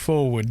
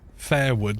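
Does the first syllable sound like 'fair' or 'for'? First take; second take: for; fair. First: The first syllable sounds like 'for'. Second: The first syllable sounds like 'fair'. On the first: "Instead of forward" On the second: "they say fairward. They replace a lot of O's with E's"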